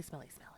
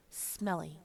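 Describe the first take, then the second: First: Repeated in a whisper. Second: Said in the usual way. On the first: Shown as a demonstration. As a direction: whisper it over and over. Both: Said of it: "I'm going to say smelly".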